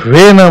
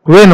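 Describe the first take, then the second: First: It begins with a breathy 'vh' sound. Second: It begins with a plain 'w' sound. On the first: The speaker calls it wrong. "व्हे न म्हणता" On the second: The speaker calls it right. "त्याला वेन म्हणायला पाहिजे"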